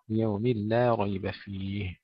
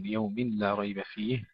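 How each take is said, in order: First: "ليوم لا ريب فيه" slow, merged, light laam, heavy raa; correct reading. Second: "ليوم لا ريب فيه" said slowly without merging; wrong reading. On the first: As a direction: recite "ليوم لا ريب فيه" slowly with idgham. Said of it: "نرقق اللام، نفخم الراء". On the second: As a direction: demo the unmerged "ليوم لا". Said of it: "ولا نقول". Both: Shown as a demonstration.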